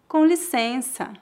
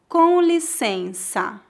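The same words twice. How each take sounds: First: It is said at natural speed. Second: It is said very slowly. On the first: "2 vezes mais naturalmente" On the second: "uma vez bem devagar"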